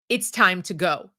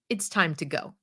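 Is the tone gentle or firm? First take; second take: firm; gentle. First: It is said in a firmer, stricter tone. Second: It is said in a mild, gentle tone.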